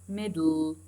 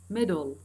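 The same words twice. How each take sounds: First: The l follows the d with no vowel. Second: A short vowel separates the d and l. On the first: "they erased this sound, this vowel sound" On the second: "بوجود الفاول يعني الشوا موجودة"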